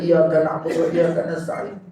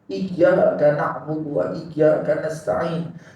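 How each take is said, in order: First: The y sound in iyyaka is short and single. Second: The y sound in iyyaka is held and doubled. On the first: The speaker calls it wrong. "Tak boleh nak baca" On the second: The speaker calls it right. "kena syadidkan tasydid"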